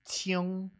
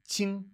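First: An extra rounded vowel comes before the ng. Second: The vowel goes straight into the ng ending. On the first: "They'll kind of add that little extra" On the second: "sometimes people will say"

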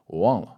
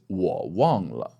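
First: It is fast and wo is almost cut off. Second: Every syllable, including wo, is said in full.

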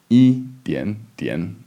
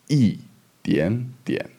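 First: The tones are first, third, third, with no changes. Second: The tones are fourth, second, third, with changes. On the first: The speaker calls it wrong. "instead of yi dian dian" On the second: The speaker calls it right. "So it's fourth, second, third"

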